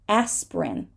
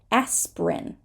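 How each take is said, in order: First: One syllable of the word is dropped. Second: The same.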